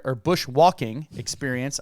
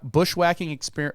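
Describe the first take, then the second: First: "bushwalking" with a clear walk, the Australian word; careful fix to "bushwalking", walk not whack; corrected word. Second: Says "bushwhacking" with whack, the American word; "bushwhacking" as in pushing through thick forest; "bushwhacking", the wrong word, the w of walk turned into whack; slip of the tongue. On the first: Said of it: "I keep screwing up". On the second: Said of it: "I keep screwing up 'cause we say bushwhacking". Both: Real, not acted.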